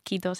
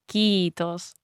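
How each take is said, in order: First: The first vowel is short. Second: The first vowel is long. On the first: The speaker calls it wrong. "it's not kiitos" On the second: The speaker calls it right. "it's kiitos, because it's double E"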